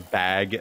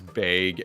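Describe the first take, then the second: First: It has a neutral, flattened accent. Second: It has a strong Minnesota accent.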